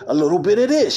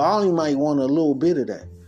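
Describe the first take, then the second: First: It is said with high, lively energy. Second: It is said with low, subdued energy.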